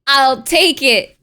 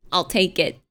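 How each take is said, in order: First: "take it" drawn out slow and loud; louder, slow, leaning hard on "take"; emphatic acceptance. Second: Said in the usual way. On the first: Real, not acted. Streamer gladly accepts being taken for foreign, emphatic. Repeats the same words emphatically.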